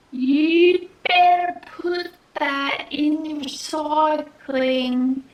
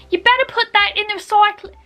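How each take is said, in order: First: Put-on very slow, stretched-out Australian accent; attempted Australian accent. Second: Put-on fast, high Australian accent; attempted Australian accent. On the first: Quick-fire quote retried for viewers, exaggeratedly slow Australian accent. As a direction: drag out every word in put-on Australian. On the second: Quick-fire quote retried for viewers, fast Australian accent. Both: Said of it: "I'm so sorry".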